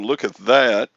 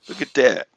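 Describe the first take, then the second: First: The last word begins with a 'th' sound. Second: The last word begins with a 'd' sound. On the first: This is what the person means to say. "I think he's saying look at that" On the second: This is how the imitated person actually says it. "he says D A T instead of T H A T"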